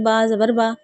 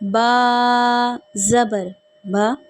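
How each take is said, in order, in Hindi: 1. आवाज़ों को छोटा कर दिया जाता है, पूरी मिक़दार नहीं दी जाती। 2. हर आवाज़ को पूरी मिक़दार दी जाती है।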